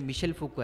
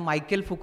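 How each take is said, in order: First: The first name is said the French way, Michel. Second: The first name is said like English Michael. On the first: The speaker calls it right. "ते त्याचं उच्चारण जे ते मिशेल फुको आहे" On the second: The speaker calls it wrong. "त्यांनी त्याला मायकेल फुको असं म्हटलं"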